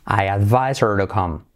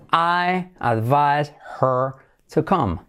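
First: "her" without its H, linked to "advise"; dropped H. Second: Very slow, separated words. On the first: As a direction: run "advise her" together as "advise-er". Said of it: "Saltamos la H". ("her" sin hache, enlazado) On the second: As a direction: model the question slowly for learners. Slow model, then linked take. (muy lento, palabra por palabra) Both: Shown as a demonstration.

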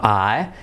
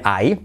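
First: English "I" with a relaxed glide; correct diphthong. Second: "I" as Spanish "ai" with a clear final I; wrong diphthong. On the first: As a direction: say "I" without a sharp "ee" ending. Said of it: "sino I". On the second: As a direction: say "I" ending in a sharp "ee". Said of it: "cuidado no decir I". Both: Shown as a demonstration.

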